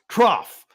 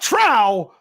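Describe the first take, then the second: First: The word ends with an f sound. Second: The word ends in a vowel, no f. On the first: The speaker calls it right. "It is pronounced trough" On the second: The speaker calls it wrong. "not trow"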